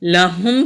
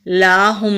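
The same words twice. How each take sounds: First: लहुम with a short a, not stretched. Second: लाहुम with the a wrongly stretched long. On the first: Teacher giving correct short लहुम before the wrong one. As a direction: keep the la in लहुम quick. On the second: Teacher showing the wrong stretched लाहुम. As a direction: draw out the la in लाहुम as a mistake. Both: Shown as a demonstration. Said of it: "लाहुम नहीं पढ़ेंगे".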